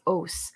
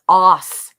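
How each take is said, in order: First: The vowel is unlike the vowel in moss. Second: The vowel is like the vowel in moss. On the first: The speaker calls it right. "which are is, as, os" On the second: The speaker calls it wrong. "not os. ... os is in moss"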